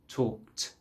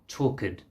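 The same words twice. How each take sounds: First: The ending is a plain t without additions. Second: An extra sound is added to the ending. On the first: The speaker calls it right. "so just talked" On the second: The speaker calls it wrong. "rather than trying to say like talked. You don't need to add an extra sound"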